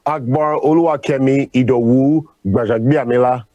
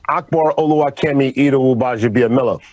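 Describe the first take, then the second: First: The name is said with a Nigerian accent. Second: The name is said with an American accent. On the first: "With the Nigerian tongue" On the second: "with the American pronunciation"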